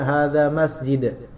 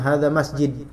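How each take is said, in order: First: The d is soft and the ending is smooth. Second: The d is pressed and the ending is clipped. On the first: This is how native Arabic speakers say it. The speaker calls it right. "Tapi yang benar adalah hadza masjid" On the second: This is how Sundanese speakers typically say it. The speaker calls it wrong. "orang Sunda biasanya hadza masjid. Da-nya seperti ditekan kemudian terakhir mati gitu"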